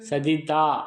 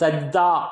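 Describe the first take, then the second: First: The word has three syllables, with a vowel after j. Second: The word is said fast in two syllables. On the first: This is the form used in the scripture. "அரபு வார்த்தை சஜிதா என்று நம்ம வேதத்தில் சொல்கிறாங்க" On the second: This is how Arabic speakers say it. "அதை வேகமாக சொல்கிறாங்க"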